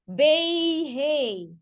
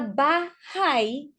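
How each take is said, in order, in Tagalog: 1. Ang unang patinig ay parang 'ay'. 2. Ang unang patinig ay parang 'ah'. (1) "graphicentric magiging Bayhay" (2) "instead na bahay"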